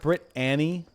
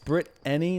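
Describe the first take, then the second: First: The name ends sounding like the name Annie. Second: The name ends sounding like the word any. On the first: The speaker calls it wrong. "not Brit Annie" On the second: The speaker calls it right. "It's Brit Any"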